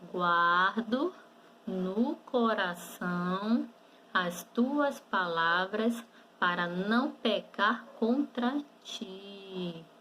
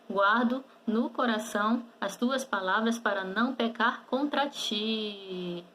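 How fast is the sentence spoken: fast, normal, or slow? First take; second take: slow; fast. First: The sentence is spoken slowly. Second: The sentence is spoken quickly. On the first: "Vamos falar um pouquinho devagar?" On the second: "Vamos falar um pouquinho mais rápido?"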